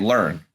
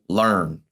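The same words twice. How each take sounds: First: It is said in the speaker's plain accent. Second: It is said with a country twang.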